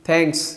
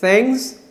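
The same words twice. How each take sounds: First: It starts with a puffed, stop-like 'th' sound. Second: It starts with a hissing 'th', between s and t. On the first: The speaker calls it wrong. "हम इसे ऐसे pronounce करते हैं थैंक, थैंक्स" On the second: The speaker calls it right. "ये proper pronunciation है"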